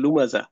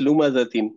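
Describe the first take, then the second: First: The word stops short without the ending. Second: The word ends with the full -tin ending. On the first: The reader pauses and drops the case ending. "এখানে আমরা বলি হচ্ছে লুমাজা" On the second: The word is read with its grammatical case ending. "শেষ হয়েছে কিন্তু হচ্ছে ... লুমাজাতিন"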